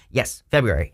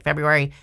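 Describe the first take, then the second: First: Said in the usual way. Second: Puzzled rising "February?"; incredulous question. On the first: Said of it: "It says February right here on the card". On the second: Retold or imitated. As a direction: ask "February?" in disbelief. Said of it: "people are like".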